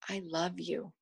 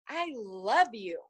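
First: It is said softly and quietly. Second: It is said loudly and animatedly.

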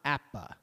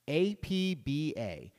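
First: The name is said as a single word. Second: Each letter of the name is said separately. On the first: "and not" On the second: "I pronounced it as an initialism"

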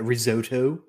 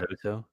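First: It is said with an American accent. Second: It is said with a British accent. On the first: The speaker calls it wrong. "I freaking hate how Americans say it" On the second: The speaker calls it right. "It's risotto, mate"

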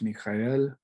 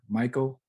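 First: The name is pronounced the Hebrew way. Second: The name is pronounced the English way. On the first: "in Hebrew, it's Michael" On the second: "As we say it in English"

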